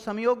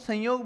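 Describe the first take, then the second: First: The nasal before 'yog' sounds like 'm'. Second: The nasal before 'yog' sounds like 'n'. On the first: The speaker calls it right. "इसको संयोग बोलना चाहिए" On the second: The speaker calls it wrong. "मतलब न की ध्वनि निकालते हैं ना"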